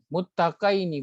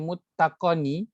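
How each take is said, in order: First: A short 'y' glide comes before the ending. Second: No 'y' glide comes before the ending. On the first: It refers to two people. The speaker calls it right. "huruf sebelum itu baris atas dan dia tak tak disebut tak dibaca dengan panjang" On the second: The information that there are two is lost. The speaker calls it wrong. "Kalau dia ini hilang, kita baca muttaqani"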